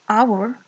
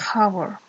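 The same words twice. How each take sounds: First: The word starts without an H sound. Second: The word starts with an H sound. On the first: The speaker calls it right. "Initial H is silent here" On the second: The speaker calls it wrong. "we don't say hour"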